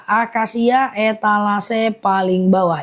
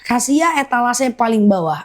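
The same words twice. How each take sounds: First: Slow, deliberate repeat of "akasia etalase paling bawah ya"; slow and clear, like dictating to buyers; slowly repeated. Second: Said in the usual way. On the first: Shown as a demonstration. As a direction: spell it out slowly for the viewers. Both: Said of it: "aku ulang pelan-pelan".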